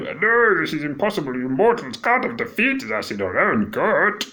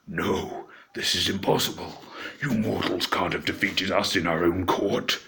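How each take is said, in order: First: It is said in a silly Muppet-like voice. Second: It is said in a dark, creepy voice.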